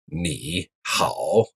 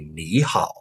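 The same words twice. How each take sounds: First: Both syllables have a low dipping tone. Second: The first syllable rises, the second dips. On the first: The speaker calls it wrong. "two third tone syllables in a row" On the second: The speaker calls it right. "the first one becomes a second tone"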